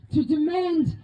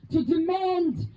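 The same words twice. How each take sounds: The two takes are said the same way.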